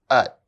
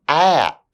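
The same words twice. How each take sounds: First: The word is reduced with a weak vowel. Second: The word is said fully with its full vowel. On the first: "then their weak forms" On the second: "I'll say the strong forms of the words first"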